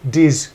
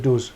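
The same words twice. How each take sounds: First: "diz" said the Geordie way, short i; "diz" with the vowel of "is"; Newcastle pronunciation. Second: "does" said the standard way, rhyming with "buzz"; "does" with a short u, no Geordie i; standard pronunciation. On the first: Host showing a politician's accent slip, "diz" in Geordie. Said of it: "you just hear". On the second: Host contrasting accents, "does" said the standard way. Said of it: "comes out instead of". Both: Shown as a demonstration.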